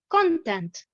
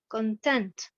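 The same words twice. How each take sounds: First: The stress is on the first syllable. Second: The stress is on the second syllable. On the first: It is a noun. "nous avons l'accentuation sur la première syllabe" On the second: It is a verb. "j'ai l'accentuation sur la deuxième syllabe"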